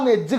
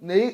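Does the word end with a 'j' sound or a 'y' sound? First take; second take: j sound; y sound. First: The word ends with a doubled 'j' sound. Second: The word ends with a 'y' glide sound. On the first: This is how people in the region actually talk. "അങ്ങനെയുള്ള പറയാം" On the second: This is formal standard speech nobody there uses. "അങ്ങനൊന്നും പറയണ ഞാൻ അതുവരെ കേട്ടിട്ടില്ല"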